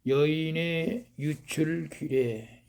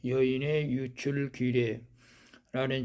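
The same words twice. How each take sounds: First: '여인의 유출 규례' said slowly and set apart, each word spaced; slow title announcement. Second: Said in the usual way. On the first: Acted. Announces sermon title, then repeats it.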